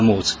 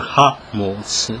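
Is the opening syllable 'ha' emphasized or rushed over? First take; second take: rushed; emphasized. First: The opening syllable is rushed over quickly. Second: The opening syllable is clearly emphasized. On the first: The speaker calls it wrong. "а не просто «Ха молодцы» проскочить" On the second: The speaker calls it right. "надо вот на это сделать как бы упор"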